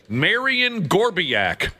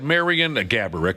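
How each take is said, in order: First: The surname is said in an altered, made-up form. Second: The surname is said in its standard form. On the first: It imitates someone's joking mispronunciation. The speaker calls it wrong. "as Josh's uncle would say" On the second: It is the name's real pronunciation. The speaker calls it right. "of course, is the real pronunciation"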